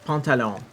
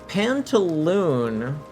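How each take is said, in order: First: The word is said with a French-style ending. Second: The word is said with an English-style ending. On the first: The speaker calls it right. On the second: The speaker calls it wrong.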